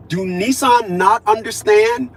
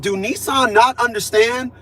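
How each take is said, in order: First: Slow "Do Nissan not understand" with the weight on "Nissan"; stress on Nissan. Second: Slow, pointed "Do Nissan not understand?" with "not" leaned on; stress on not. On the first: Writing to the dealership, pressing hard on "Nissan". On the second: Repeating the email to the dealership, slow and pointed on "not". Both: Retold or imitated. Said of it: "I said".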